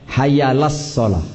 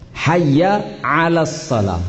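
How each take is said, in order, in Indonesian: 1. Bunyi tenggorokan sebelum 'alas' dihilangkan. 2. Bunyi tenggorokan sebelum 'alas' diucapkan dengan jelas.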